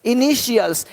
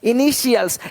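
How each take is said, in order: First: The middle consonant is a 'sh' sound. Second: The middle consonant is a 'sh' sound.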